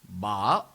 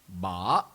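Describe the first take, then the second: Both takes have the same delivery.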